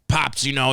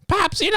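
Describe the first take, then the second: First: The voice is very deep and low. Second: The voice is higher and more boyish. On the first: The speaker calls it wrong. "sound like his fucking balls are just dragging across the ground" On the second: The speaker calls it right. "there we go"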